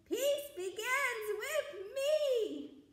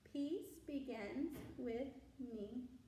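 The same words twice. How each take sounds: First: It is said very loudly. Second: It is said in a normal voice.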